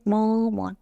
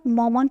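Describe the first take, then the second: First: مامان in two drawn-out beats; split into syllables. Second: Said in the usual way. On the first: Shown as a demonstration. Teacher counting syllables for learners, split into syllables. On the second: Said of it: "مامان چند بخشه".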